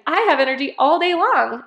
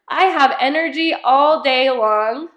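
First: It is said in a lively, peppy way. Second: It is said in a plain, flat way.

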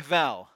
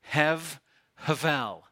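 First: The word is said plainly without extra breath. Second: The word is said with breath blown out. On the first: The speaker calls it wrong. "You can't say hevel. That's not how it's pronounced" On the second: The speaker calls it right. "you have to say it with two breaths... you have to blow out"

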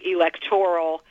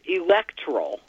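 First: The stress is on the third syllable. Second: The stress is on the second syllable. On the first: The speaker calls it wrong. "you're getting more and more commonly hearing electoral" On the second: The speaker calls it right. "the preferred is electoral with the pronunciation on the second"

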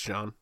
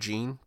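First: The name sounds like French 'zhahn'. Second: The name sounds like English 'jeen'. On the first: The speaker calls it right. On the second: The speaker calls it wrong. "It's not Billy Jean"

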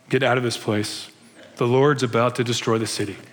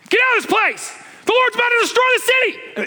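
First: It is said casually, without urgency. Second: It is said urgently and forcefully.

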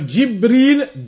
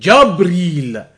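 First: The first syllable has an 'i' vowel. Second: The first syllable has an 'a' vowel. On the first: "Instead of Jibreel" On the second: "You have Jabreel"

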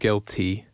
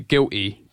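First: The T sound in the middle is pronounced. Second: The T sound in the middle is dropped. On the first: "Instead of guilty" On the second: "typically you don't pronounce your T's. So you say guilty"

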